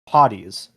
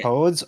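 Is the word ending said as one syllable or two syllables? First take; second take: two syllables; one syllable. First: The ending is said as two syllables. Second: The ending is said as one syllable. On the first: The speaker calls it right. "when it's pronounced potties" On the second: The speaker calls it wrong. "You're pronouncing it pods"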